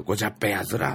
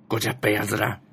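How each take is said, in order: First: ごじゃっぺやつら said carefully in Ibaraki dialect, rising on ら; Ibaraki dialect explained. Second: ごじゃっぺやずら read in Ibaraki dialect, ずら not やつら. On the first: Explaining to listeners the Ibaraki dialect version, ごじゃっぺやつら. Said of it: "それ茨城弁にすると". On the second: Reading out her tweet, the Ibaraki dialect ごじゃっぺやずら. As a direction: Ibaraki dialect phrase said as the locals say it. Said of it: "茨城の方言なんですよ". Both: Shown as a demonstration.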